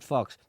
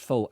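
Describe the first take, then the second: First: The word has a short o and ends in ks. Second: The word ends in a long oh vowel. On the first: The fur is real fox fur. The speaker calls it wrong. "Don't pronounce it fox" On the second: The fur is false. The speaker calls it right. "That's pronounced faux"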